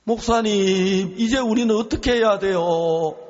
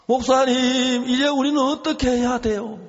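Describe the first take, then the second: First: Higher, louder, pleading through tears; retold wailing plea. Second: Much higher and louder sobbing plea; imitated wail at the top of the voice; retold wailing, stronger. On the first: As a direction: cry out to the pastor in despair, voice breaking. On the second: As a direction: let the cry climb higher this time, near a wail. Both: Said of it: "갑자기 사모님 막 통곡을 하기 시작하는 거예요".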